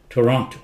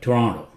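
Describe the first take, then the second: First: The second T is clearly pronounced. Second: The second T is barely pronounced.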